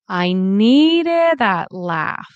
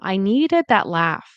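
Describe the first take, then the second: First: The t in 'that' is clearly released. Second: The t in 'that' is a glottal stop. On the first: "Exaggerated again" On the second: "I pronounce this more as like a glottal stop"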